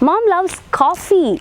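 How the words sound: The stress is on coffee.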